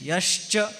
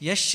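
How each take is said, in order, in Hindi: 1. 'sh' और 'ch' की ध्वनियाँ साफ़ बोली गई हैं। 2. 'sh' और 'ch' की ध्वनियाँ आपस में धुंधली हो गई हैं। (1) "श और च का उच्चारण शुद्ध स्पष्ट होना चाहिए" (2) "बहुत से लोग यश्च भी कहते हैं, यश्च नहीं"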